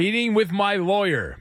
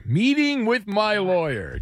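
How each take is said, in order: First: Said in the usual way. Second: Slow, higher, teasing repeat; mocking echo. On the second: Host mocks the caller's lawsuit, slow teasing echo. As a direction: drag it out like he smells money.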